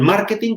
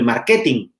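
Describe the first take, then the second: First: The stress is on the first syllable. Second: The stress is on the second syllable. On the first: Making informed business decisions. The speaker calls it right. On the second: Having a costly brochure department. The speaker calls it wrong.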